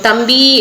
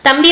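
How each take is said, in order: First: The final vowel is drawn out long. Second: The word is said short and plain. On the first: The person called is far away. "நீண்டு வந்து ஒலிப்போம்" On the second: The person called is nearby. "தம்பி வந்து பக்கத்துல இருந்தா"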